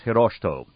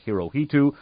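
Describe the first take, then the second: First: The name is said the Japanese way. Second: The name is said the usual American way. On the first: The speaker calls it right. "His name is actually pronounced Hirohito. That's the correct pronunciation" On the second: The speaker calls it wrong. "usually mispronounced by Americans"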